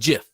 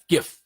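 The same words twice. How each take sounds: First: It begins with a soft J sound. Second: It begins with a hard G sound. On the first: The speaker calls it wrong. "It's not a J" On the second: The speaker calls it right. "say it like the word gift"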